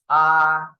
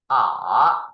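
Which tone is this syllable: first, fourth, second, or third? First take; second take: first; third. First: The pitch stays high and level. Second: The pitch dips low, then rises. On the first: "The first tone is R" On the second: "third tone is R"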